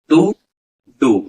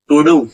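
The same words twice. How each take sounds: First: A clear gap separates the two words. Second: The two words run together quickly without a break. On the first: The words are written separately. "Gap देख के बोला जाएगा" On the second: The words are written joined without lifting the pen. "बोलने वाला sentence को speedly बोलेगा"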